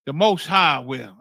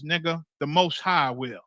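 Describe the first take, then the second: First: "The Most High will" slow, louder, each word weighted; emphatic repeat. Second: Said in the usual way. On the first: Real, not acted. Preacher answering doubters about the councils, slow and emphatic.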